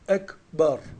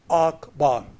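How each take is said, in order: First: The first vowel is a front e sound. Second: The first vowel is an open a sound. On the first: The speaker calls it right. "Ekber ve e sesi de bir gramer gereğidir" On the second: The speaker calls it wrong. "İngilizce yazılmış gibi okunduğu zaman mesela akbar"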